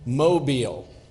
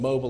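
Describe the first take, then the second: First: It is pronounced like the Alabama city name. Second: It is pronounced like the ordinary word 'mobile'. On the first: It hides that the street is a trailer park. "but I pronounced it Mobile ... like in Mobile, Alabama" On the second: It suggests homes on wheels in a trailer park. "not as in mobile, let's kick the wheels off"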